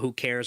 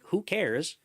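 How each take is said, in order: First: It sounds sarcastic and dismissive. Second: It sounds sincere and genuinely questioning. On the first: The speaker does not care at all. The speaker calls it wrong. "a facetious, oh" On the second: The speaker really wants to know who benefits. The speaker calls it right. "It's not to be sarcastic"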